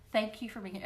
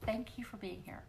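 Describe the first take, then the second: First: Said in the usual way. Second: Breathy whisper of thanks, no voice; a soft voiceless thank-you. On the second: Real, not acted. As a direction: whisper "thank you for being here" intimately. Thanks viewers, then repeats softly.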